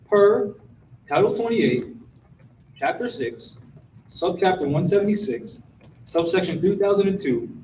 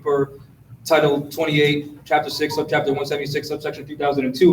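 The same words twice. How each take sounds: First: The phrase is spoken at a slow pace. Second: The phrase is spoken at a fast pace. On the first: The speaker calls it right. "I'll say it again slowly" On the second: The speaker calls it wrong. "Did I say that too fast?"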